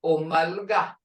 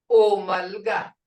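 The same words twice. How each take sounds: First: Said in the usual way. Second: Omalga repeated slowly and louder for the class; slow model take. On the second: Shown as a demonstration. Teacher repeats Omalga for students to copy, slow and louder. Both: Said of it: "All or everyone".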